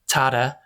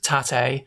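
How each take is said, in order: First: The name sounds like the English word father. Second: The name sounds like the Spanish word padre. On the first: "pronouncing it as the characters in the film do, ... sounds like father" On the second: "Pronouncing it how it looks, ... sounds like the Spanish padre"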